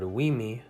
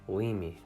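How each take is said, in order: First: The first consonant is a rounded W. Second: The first consonant is made with unrounded lips. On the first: "The word wimi" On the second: "becomes limi"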